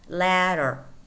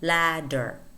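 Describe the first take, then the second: First: The middle consonant is a quick r-like tap. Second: The middle consonant is a clear d sound. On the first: "when it appears in between two vowels, it becomes a r" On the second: "Although you could say ladder"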